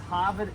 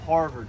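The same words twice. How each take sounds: First: The R sounds are dropped, Boston style. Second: The R sounds are clearly pronounced. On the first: "It says Harvard" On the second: "instead of Harvard"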